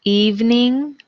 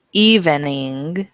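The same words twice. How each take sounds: First: Evening said EVE-ning, higher; two syllables. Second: Evening said EVEN-ing, slow; three syllables. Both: Shown as a demonstration. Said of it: "homographs list".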